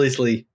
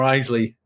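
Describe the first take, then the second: First: "Isley" with a short i, IZ-lee; first pronunciation. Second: "Isley" with a long i, EYE-zlee; alternative pronunciation. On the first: Host unsure of singer's surname, "[name]" as IZ-lee. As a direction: say "Isley" to start like "is". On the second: Offering co-host another option, "Isley" as EYE-zlee. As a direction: say "Isley" to start like "eyes". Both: Shown as a demonstration. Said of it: "I don't know how you pronounce it".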